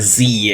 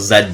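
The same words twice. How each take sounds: First: The letter is said as zee. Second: The letter is said as zed.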